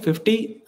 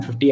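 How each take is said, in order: First: fifty asked with a high rising question tune; questioning rise. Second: Said in the usual way. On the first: Real, not acted. Streamer floats a viewer target to chat, rising high.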